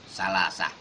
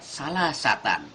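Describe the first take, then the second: First: The word ends with a short h sound. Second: The word ends with a t sound and n. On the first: This is how it is read when stopping at the verse end. "lalu kita baca dengan salasah" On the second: This is the written form with tanwin. "tak marbuthah di akhir ayat salasatan"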